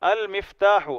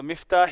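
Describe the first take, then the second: First: المفتاح with the article, al-miftah, falling; right reading. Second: مفتاح said without the al, as miftah; wrong reading. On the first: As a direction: give المفتاح in full, al-miftah. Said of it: "اس کو المفتاح پڑھ سکتے ہیں". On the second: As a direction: drop the article in مفتاح as the wrong form. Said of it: "مفتاح ہی نہیں پڑھ سکتے". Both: Shown as a demonstration.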